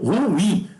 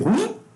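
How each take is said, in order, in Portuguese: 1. Duas sílabas, com a tônica na última. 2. A palavra é falada em uma sílaba. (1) "aí fica oxítono" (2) "monossílabo"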